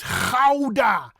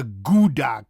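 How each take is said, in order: First: Gouda as "khow-da", rasped g; high, loud Gouda from the throat; harsh Dutch G. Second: Gouda as "goo-da", hard g; anglicized Gouda with oo; wrong English pronunciation. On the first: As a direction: scrape the g of Gouda. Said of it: "the harsh G". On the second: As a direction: say Gouda like an American. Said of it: "It's not a Gouda kaas". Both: Shown as a demonstration.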